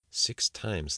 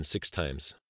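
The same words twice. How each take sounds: First: Lightly voiced musing to himself; a touch of character voice, thinking it over; Abdul's inner thought. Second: Said in the usual way. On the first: A narrator's reading. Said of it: "thought Abdul". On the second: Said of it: "Ten seconds later".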